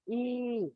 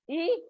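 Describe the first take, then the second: First: The vowel is said long. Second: The vowel is said short. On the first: "The short and the long" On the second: "The short and the long"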